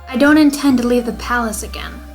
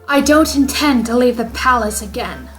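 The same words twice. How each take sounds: First: It is said in the speaker's normal voice. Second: It is said in the character's put-on voice. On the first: The speaker calls it wrong. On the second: The speaker calls it right.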